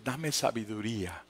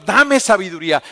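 First: Much softer, lower murmured plea; quiet prayer. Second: Much louder, full-voiced cry for wisdom; loud plea. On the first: Acted. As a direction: pray it under your breath. (oración en voz baja: dame sabiduría) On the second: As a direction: call up to God with force. Crying out to God loudly. (clamor fuerte: dame sabiduría)

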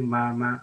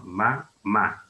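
First: MA, MA with the stress on the first syllable; wrong stress. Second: Ma, MA with the stress on the last syllable; accented final syllable. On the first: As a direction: say "ma, ma" as mama, stressed at the front. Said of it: "yo no puedo decir ma, ma, así". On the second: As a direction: say "Ma, ma" as mamá, landing on the second ma. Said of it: "porque tiene, obviamente, el acento ortográfico". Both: Shown as a demonstration.

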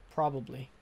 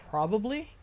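First: Said in the usual way. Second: Probably with a high rising questioning tune. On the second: Real, not acted. Gamer guessing about cannibal hunters, rising questioning tone. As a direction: toss it out as a guess.

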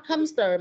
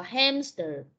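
First: "hamster" with an "uh" first vowel, like "humster"; mispronounced hamster. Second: "hamster" with the open "a" of "cat"; corrected hamster. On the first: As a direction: imitate the mistake: say "hamster" as "HUM-ster". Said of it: "mà là hamster". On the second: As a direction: model "hamster" as "HAM-ster", vowel clearly open. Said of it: "not hamster, mà là hamster". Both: Shown as a demonstration.

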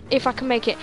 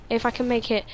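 The two takes are said the same way.

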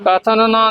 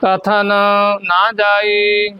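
First: ਕਥਨ ਨਾ rushed as one word; fast, joined ਕਥਨ ਨਾ with no gap; words run together. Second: ਕਥਨ, a clear pause, then slow ਨਾ ਜਾਈ; ਨਾ ਜਾਈ set apart from ਕਥਨ and drawn out; separated words. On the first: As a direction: merge the two N sounds of ਕਥਨ ਨਾ. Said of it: "ਕਥਨ ਨਾ ਨਹੀਂ ਕਹਿਣਾ". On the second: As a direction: leave a gap after ਕਥਨ. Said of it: "ਪਹਿਲਾਂ ਕਥਨ ਕਹਿਣਾ". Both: Shown as a demonstration.

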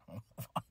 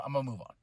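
First: Much softer, laughing it off; laughing softly. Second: Said in the usual way. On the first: Real, not acted. Wrestling vlogger laughs off his own rant, much softer. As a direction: chuckle the words away under your breath.

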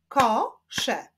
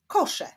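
First: "kosze" split as ko, sze with a pause; two separate beats on "kosze"; syllable by syllable. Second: Said in the usual way. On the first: Shown as a demonstration. Teacher clapping syllables for pupils, "kosze" split in two. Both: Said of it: "Zapraszam do wyklaskiwania".

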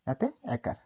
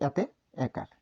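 The two takes are said the same way.

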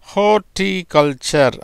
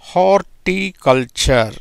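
First: Said in the usual way. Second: horticulture said slowly, syllables spread out; slow demo. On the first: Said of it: "அப்படிங்கிற உச்சரிப்புல வருது". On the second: Shown as a demonstration. Teacher modelling the word for students, slow and careful. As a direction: draw out horticulture for the class. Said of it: "எப்படி பாருது பாருங்க".

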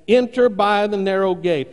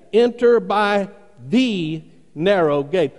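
First: Said in the usual way. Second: Slow, with a weighty, drawn-out "the" set apart; stress on THE. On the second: Shown as a demonstration. Preacher showing the command's emphasis, "the" stretched and stressed. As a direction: lean hard on "the", pausing around it. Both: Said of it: "Notice the emphasis".

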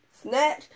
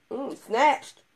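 First: Mock hype, louder. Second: Mock hype. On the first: Repeat of the hype. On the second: Women hyping each other.

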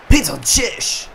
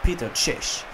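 First: Slow, drawn-out, booming call of "Peter Cech"; announcer voice. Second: Said in the usual way. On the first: Shown as a demonstration. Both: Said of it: "so cool klingt das bestimmt nicht".

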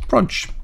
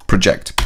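First: "project" with a high, lifted PRO- at the start; quick "project" with the first syllable stressed; project as a noun. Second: "project" settling on -JECT with a falling tune; corrected "project", stress on the last syllable; project as a verb. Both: Shown as a demonstration. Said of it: "or project".

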